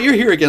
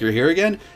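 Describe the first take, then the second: First: It is said in a cheerful, pleased tone. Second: It is said in a flat, uninterested tone. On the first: The person is glad to see the customer. "not like in a happy way like oh you're here again" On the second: The person would rather not serve the customer. "I just want to sit on my iPhone and not serve customers"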